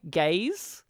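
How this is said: The word is said imitating a foreign accent. "with his accent, ... It sounded like gaze"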